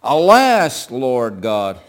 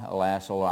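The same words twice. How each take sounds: First: Loud anguished cry of Alas. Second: Low, soft and calm; a quiet, composed plea with no urgency; calm, subdued Alas; said calmly. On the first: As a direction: call out to God in anguish. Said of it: "I imagine he's crying out". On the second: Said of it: "you don't think he said calmly". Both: Shown as a demonstration.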